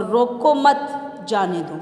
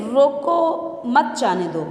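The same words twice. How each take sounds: First: "روکو مت" as one unit, "جانے دو" set apart; pause after مت. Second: "روکو" as a command, then "مت جانے دو" together; pause after روکو. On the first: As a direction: run "روکو مت" together, break, then "جانے دو". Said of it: "کے بعد سکتہ لگانے سے جانے کی اجازت". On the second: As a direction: stress روکو, brief break, then مت جانے دو. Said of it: "پہلے جملے میں روکو کے بعد سکتہ لگانے سے". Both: Shown as a demonstration.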